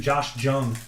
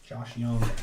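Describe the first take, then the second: First: The surname begins with a hard J sound. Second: The surname begins with a Y sound. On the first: The speaker calls it wrong. "a lot of people say Jung too" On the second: The speaker calls it right. "It's actually Young"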